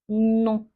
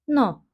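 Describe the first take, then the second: First: The vowel is nasal, produced through the nose. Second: The vowel is oral, produced from the throat. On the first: The speaker calls it right. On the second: The speaker calls it wrong.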